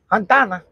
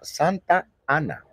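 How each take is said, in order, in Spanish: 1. Las dos vocales se unen en una sola palabra. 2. Las dos palabras se mantienen separadas. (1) "¿Por qué hay gente que dice Santana" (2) "Y se llama Santa Ana. ¿Sí o no? Así es correctamente"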